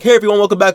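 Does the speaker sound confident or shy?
confident. The voice sounds confident, relaxed and assured. The speaker has grown comfortable addressing an audience. "But now I'm like"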